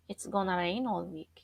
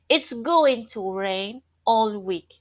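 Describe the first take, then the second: First: Going to is reduced and blended together. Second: Going to is said in full, unreduced.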